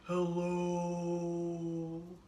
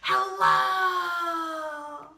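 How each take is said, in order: First: It is said in a very low pitch. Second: It is said very loudly. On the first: "as low as we can" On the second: "as loud as we can"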